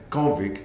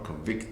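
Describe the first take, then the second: First: The stress is on the first syllable. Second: The stress is on the second syllable. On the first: It is a noun naming a person. "A convict is a noun" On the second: It is a verb naming an action. "convict is a verb"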